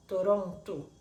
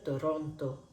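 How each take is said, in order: First: "Toronto" terminando en u, "Torontu"; Toronto portugués. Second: "Toronto" con o final clara; Toronto español. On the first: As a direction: di "Toronto" con la o final como u. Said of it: "decimos como Toronto con U". ("Toronto" a la portuguesa, final en u) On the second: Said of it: "En español". ("Toronto" en español, o final pura) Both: Shown as a demonstration.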